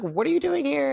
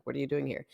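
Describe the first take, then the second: First: High-pitched incredulous question; astonished aunt. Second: Said in the usual way. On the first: Retold or imitated. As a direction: imitate a startled aunt, up high. Aunt's startled reaction, retold.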